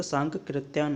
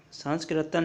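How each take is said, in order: First: सांकृत्यान with no s, sank-kri; correct pronunciation. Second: सांस्कृत्यान with an extra s before k; wrong pronunciation. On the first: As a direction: say सांकृत्यान straight from n to k. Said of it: "सांकृत्यान होता है". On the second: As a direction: say सांस्कृत्यान as sans-kri. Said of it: "सांस्कृत्यान नहीं होता". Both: Shown as a demonstration.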